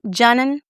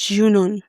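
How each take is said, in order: First: It is said with an exaggerated American pronunciation. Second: It is said without an American-style pronunciation. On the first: The speaker calls it wrong. "I don't want to be an American sitting there saying" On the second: The speaker calls it right. "It's Junun"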